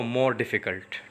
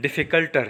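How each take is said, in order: First: Said in the usual way. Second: The tempting wrong form difficulter, said a bit louder. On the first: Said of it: "No, more difficult". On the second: Shown as a demonstration. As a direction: say difficulter as if it were correct, a touch louder. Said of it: "it will be wrong".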